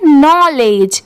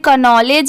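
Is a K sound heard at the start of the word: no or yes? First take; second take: no; yes. First: The word starts with an N sound. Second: The word starts with a K sound. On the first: The speaker calls it right. "इसे पढ़ेंगे नॉलेज" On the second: The speaker calls it wrong. "But नहीं, यहाँ पर के letter silent है"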